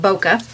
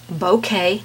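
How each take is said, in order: First: Bokeh said as BOH-kuh; wrong pronunciation. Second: Bouquet said as BOH-kay; correct pronunciation. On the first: Painting teacher warning viewers off the mistaken bokeh, BOH-kuh. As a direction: let bokeh end in a short "kuh". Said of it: "not bokeh". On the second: Painting teacher settling it for viewers, bouquet as BOH-kay. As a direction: say bouquet with a full "kay" ending. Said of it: "it is pronounced bouquet". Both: Shown as a demonstration.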